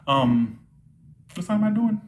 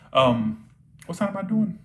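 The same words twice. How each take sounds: The two takes are said the same way.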